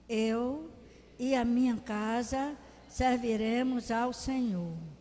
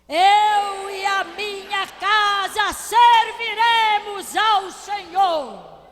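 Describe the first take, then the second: First: It is said very softly. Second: It is said with full force.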